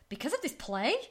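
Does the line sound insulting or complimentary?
insulting. It sounds insulting, doubting the play's quality.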